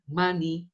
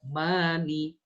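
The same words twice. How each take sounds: First: The vowel in 'ma' is cut short. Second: The vowel in 'ma' is held long. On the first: The speaker calls it wrong. "bukan mani" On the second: The speaker calls it right. "Yang harusnya dua"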